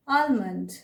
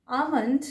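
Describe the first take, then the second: First: "आलमंड" with the l sounded; alternative pronunciation. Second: "आमंड" with silent l; alternative pronunciation. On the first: Teacher showing the other accepted "आलमंड", l sounded. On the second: Teacher showing one accepted "आमंड", l silent. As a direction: drop the l in "आमंड". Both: Shown as a demonstration. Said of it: "सारे ही correct प्रोनंसिएशंस".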